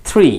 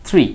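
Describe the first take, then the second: No difference in how they are said.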